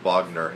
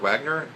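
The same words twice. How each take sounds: First: The name begins with a V sound. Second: The name begins with a W sound. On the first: The speaker calls it right. "they pronounce it with a V" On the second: The speaker calls it wrong. "You won't be pronouncing it that way"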